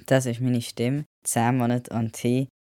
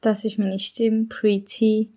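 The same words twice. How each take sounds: First: Said in the usual way. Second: Clearly higher, voice before testosterone; the higher old voice from before the transition; pre-T voice. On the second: Shown as a demonstration. (deutlich höhere Stimme vor Testosteron) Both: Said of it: "da kommt jetzt der Stimmvergleich".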